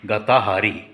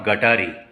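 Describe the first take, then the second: First: The word has four syllables, with a middle 'ha'. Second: The word has three syllables, with no middle 'ha'. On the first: It is the original form of the name. The speaker calls it right. "त्याचा pronunciation गताहारी" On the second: It is a corrupted form of the name. The speaker calls it wrong. "It's not गटारी"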